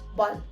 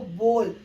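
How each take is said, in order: First: The vowel is kept very short. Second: The vowel is drawn out long. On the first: The speaker calls it right. "यहां पर आपको ओ की बहुत ही short sound देनी है" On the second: The speaker calls it wrong. "हम अभी तक ओ को बहुत लंबा खींच रहे थे"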